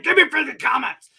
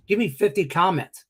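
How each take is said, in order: First: High, loud, hammed-up whining plea; mock pleading. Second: Said in the usual way. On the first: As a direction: beg like a whiny kid. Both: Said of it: "I'm just kidding".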